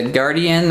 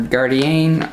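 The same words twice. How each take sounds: First: "Guardian" said like the everyday English word; "Guardian" with an unstressed English ending; English pronunciation. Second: "Gardienne" with a French-like -enne ending; "Gardienne", the fancier alternative reading of the name; alternative pronunciation. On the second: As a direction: say "Gardienne" with the last syllable drawn out as "enne". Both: Shown as a demonstration. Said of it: "I don't know how you wanna say it".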